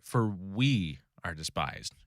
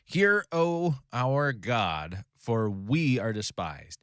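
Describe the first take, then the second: First: "we" leaned on, slow and soft; stress on we. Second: Slow, solemn prayer read aloud; scripture reading. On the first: Shown as a demonstration. Teacher pointing the class to "we" in "For we are despised", slow stress. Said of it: "Notice how he says "we". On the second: Acted. Teacher reading Nehemiah's prayer to the class, slow and solemn.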